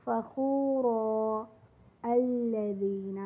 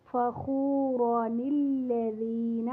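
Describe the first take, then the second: First: فخورا recited with a long final a and no nun, then a fresh start on الذین; pausing reading. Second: فخوران الذین recited slowly with the nun sounded, flowing straight into الذین; joined reading. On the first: Teacher showing students how to pause at the verse end, slow recitation. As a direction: stop on فخورا and begin الذین anew, slowly. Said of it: "اور جب وقف کریں گے".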